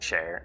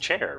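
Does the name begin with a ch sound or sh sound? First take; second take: sh; ch. First: The name begins with a sh sound. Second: The name begins with a ch sound.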